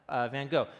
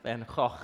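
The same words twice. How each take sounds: First: It is said with an American pronunciation. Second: It is said with a Dutch pronunciation. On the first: The speaker calls it wrong. "that's the American way of pronouncing it" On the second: The speaker calls it right. "It's actually pronounced Vincent van Gogh"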